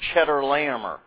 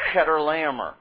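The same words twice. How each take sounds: First: It begins with a ch sound as in cheese. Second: It begins with a throaty kh sound. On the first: The speaker calls it wrong. "It's not Chedorlaomer. doesn't have anything to do with cheese" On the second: The speaker calls it right. "if you want to be very Hebraically accurate"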